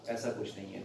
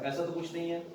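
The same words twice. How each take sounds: First: Said in the usual way. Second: ऐसा तो कुछ नहीं है asked as a question, stress on ऐसा; asking question. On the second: Real, not acted. Doctor asks the patient, as a question.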